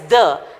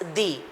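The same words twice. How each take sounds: First: The vowel is a short weak 'uh' sound. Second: The vowel is a long 'ee' sound. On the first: "T H U H" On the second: "T H E E"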